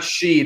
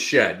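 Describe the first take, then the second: First: The vowel is a long 'ee' sound. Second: The vowel is a short 'e' sound. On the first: The speaker calls it wrong. "it's not Sheed" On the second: The speaker calls it right. "it's Shed"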